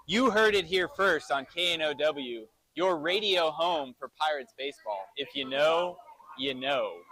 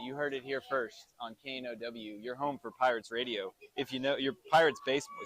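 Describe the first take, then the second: First: Clean, assured radio tagline; station tagline done right. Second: Softer, tongue-tied radio tagline; fumbled station tagline. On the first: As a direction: deliver the slogan without a stumble, pausing before the last "you know". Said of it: "I got it right that time". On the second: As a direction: stumble through the station slogan, muddling "your Pirates baseball". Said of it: "I can't even talk straight". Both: Real, not acted.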